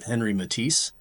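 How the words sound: The name is said with an American pronunciation.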